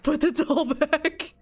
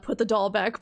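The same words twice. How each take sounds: First: Higher, louder, breaking into laughter; laughing plea. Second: Said in the usual way. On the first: Real, not acted. Player begging the game character to drop the doll, laughing plea. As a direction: repeat it urgently through a laugh.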